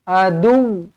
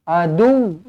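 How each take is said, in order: The two takes are said the same way.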